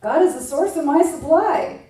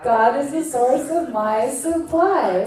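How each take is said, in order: First: Affirmation. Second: Slow, solemn affirmation. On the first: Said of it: "let's do an affirmation". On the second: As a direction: let each word land slowly. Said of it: "Say it one more time". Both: Shown as a demonstration.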